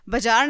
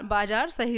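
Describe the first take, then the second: First: "बाजार" with first A short, "bajaar"; short first vowel. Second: Said in the usual way. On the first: Shown as a demonstration. Teacher shows children the error, "बाजार" as bajaar. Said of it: "बाजार नहीं होता बच्चों". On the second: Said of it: "बाजार सही होता है word".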